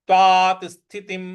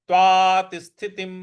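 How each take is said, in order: Both takes have the same delivery.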